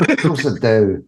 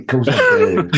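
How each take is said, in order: First: Said in the usual way. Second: Squeaky high delighted answer; eager yes. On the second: Retold or imitated. The buyer answers his mate's offer, squeaky high and eager. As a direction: jump at the offer, much higher. Own eager reply, retold.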